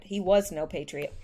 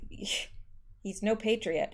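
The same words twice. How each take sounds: First: Emphatic "was", the rest falling away; stress on WAS. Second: Said in the usual way. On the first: Real, not acted. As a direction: lean on "was" to correct the tense. Corrects is to was.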